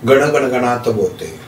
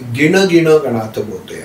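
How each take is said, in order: First: The mantra begins with the syllable 'gan'. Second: The mantra begins with the syllable 'gin'. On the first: "जसं श्री स्वामी समर्थ म्हणतो तसं" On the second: "काही ठिकाणी ... असा सुद्धा त्याचा उच्चार केला जातो"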